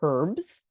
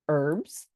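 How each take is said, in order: First: The word starts with a clear h sound. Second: The word starts with a vowel, no h sound. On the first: "or herbs" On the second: "they always laugh at me when I say um, herb"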